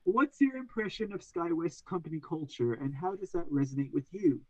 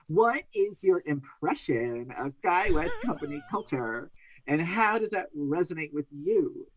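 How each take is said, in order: First: The question is read in a plain, neutral tone. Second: The question is read in a mocking, sarcastic tone.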